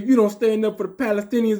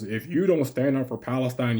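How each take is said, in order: First: It is said in an exaggerated put-on voice. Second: It is said in a plain voice.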